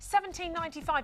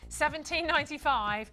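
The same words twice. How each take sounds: First: The price is said quickly. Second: The price is said at a slower pace.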